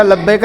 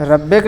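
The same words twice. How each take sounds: First: लब्बैक with a clear L at the start; correct pronunciation. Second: रब्बैक with an R sound at the start, as the wrong form; wrong pronunciation. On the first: Teacher giving the right roll-call reply लब्बैक. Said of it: "रब्बैक नहीं बेटा, लब्बैक रे". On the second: Teacher showing a student's wrong roll-call reply रब्बैक. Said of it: "रब्बैक नहीं बेटा". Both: Shown as a demonstration.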